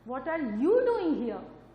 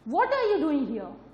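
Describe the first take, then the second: First: The stress falls on the word you. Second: The stress falls on the word what. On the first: "मैंने second sentence में किस पे जोर दिया, you पे" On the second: "मैंने जोर दिया व्हाट पे"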